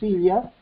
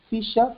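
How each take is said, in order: First: The ll sounds like a palatal 'ly'. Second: The ll sounds like an English 'y'.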